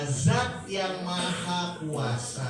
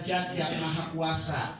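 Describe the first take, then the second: First: Zat starts with a clear z sound. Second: Zat starts with a sound other than z. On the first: The speaker calls it right. "Yang betul adalah" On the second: The speaker calls it wrong. "Benar salah?"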